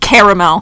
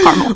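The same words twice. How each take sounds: First: The word is said in a fancy, French-like way. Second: The word is said in a plain, everyday way. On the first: The speaker sounds pretentious. The speaker calls it wrong. "Where am I from? France? Caramel. How pretentious" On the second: The speaker sounds down to earth. The speaker calls it right. "Calm it down. It's caramel"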